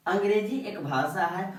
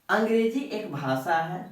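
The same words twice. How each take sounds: The two takes are said the same way.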